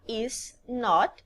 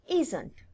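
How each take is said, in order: First: It is said as two separate full words. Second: It is said as one contracted word. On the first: "Ao invés de pronunciar is not" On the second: "eu falo isn't"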